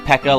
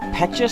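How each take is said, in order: First: The middle consonant is a 'k' sound. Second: The middle consonant is a 'ch' sound. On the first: The speaker calls it right. "like Pekka, like echo" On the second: The speaker calls it wrong. "Petcha sounds, I don't know, odd to me"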